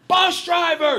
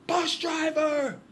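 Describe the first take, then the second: First: High, loud call to the driver; megaphone shout. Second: Slow, high, loud showman call; drawn-out shout. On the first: TV host calling out to the bus driver, loud shout. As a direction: bark it through a megaphone. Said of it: "and he goes". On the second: Host with a megaphone hailing the bus driver, slow high shout. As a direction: stretch it out like a TV host. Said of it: "and goes". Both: Retold or imitated.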